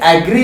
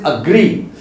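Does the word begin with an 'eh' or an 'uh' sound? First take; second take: eh; uh. First: The first vowel sounds like 'eh'. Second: The first vowel sounds like 'uh'. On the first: The speaker calls it wrong. "ये एग्री नहीं होता" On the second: The speaker calls it right. "It is अग्री"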